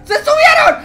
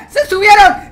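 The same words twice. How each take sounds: First: Much higher, panicked yell; panicked high shout. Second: Loud alarmed yell; excited shout. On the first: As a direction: scream it in panic. Repeated, rising panic. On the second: Monsters climbing into their house. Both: Real, not acted.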